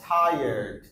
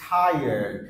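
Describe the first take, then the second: The two takes are said the same way.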